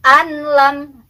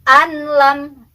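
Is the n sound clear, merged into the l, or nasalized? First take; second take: clear; clear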